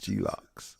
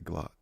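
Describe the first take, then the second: First: The letter G is spelled out separately. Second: The word is said as one syllable. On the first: Someone misread the brand name. The speaker calls it wrong. "but he pronounced it G locks" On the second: This is the intended brand name. The speaker calls it right. "he was trying to say Glock"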